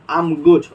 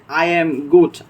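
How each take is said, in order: First: The first two words are squeezed into one. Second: Every word is said fully and separately. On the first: "So it will be short" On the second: "we say like I am good"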